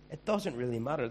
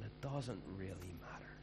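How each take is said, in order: First: Emphatic, firmer repeat; firm restatement. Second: Soft, dropped aside; dropped low. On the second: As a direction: trail off softly. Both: Shown as a demonstration.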